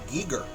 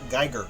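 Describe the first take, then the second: First: It does not sound like Geiger counter. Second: It sounds like the Geiger in Geiger counter. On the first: The speaker calls it right. "I know it's pronounced H R Giger" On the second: The speaker calls it wrong. "not Geiger, like the counter"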